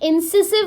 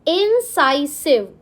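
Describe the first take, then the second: First: The second syllable has a short 'i' sound. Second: The second syllable has a long 'eye' sound. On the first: The speaker calls it wrong. "इंसिसिव नहीं बोलते हैं" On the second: The speaker calls it right. "It's pronounce as इंसाइसिव"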